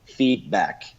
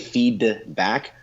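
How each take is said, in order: First: The throat closes instead of saying the d. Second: The d is fully released, like two words. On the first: "you'll close that thing and say feedback" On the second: "you shouldn't say feed back"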